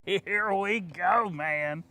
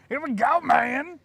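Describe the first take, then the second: First: Drawn out. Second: High, loud hype shout. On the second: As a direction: pump up the crowd. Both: Pretend. Hyping up the next clip.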